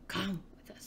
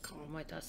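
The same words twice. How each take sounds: First: It sounds powerful but not evil. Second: It sounds menacing and evil.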